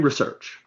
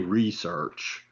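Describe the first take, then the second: First: The word is said with a standard pronunciation. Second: The word is said with a Southern pronunciation. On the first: The speaker calls it right. "say research" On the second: The speaker calls it wrong. "Don't say research"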